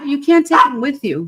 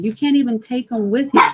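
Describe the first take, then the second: First: "can't" punched, whole line louder and higher; louder insistent repeat of "You can't take 'em with you"; emphatic repeat. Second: Said in the usual way. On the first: Real, not acted. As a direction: drive the point home on "can't". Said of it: "You can't even take 'em with you". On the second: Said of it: "You can't take 'em with you".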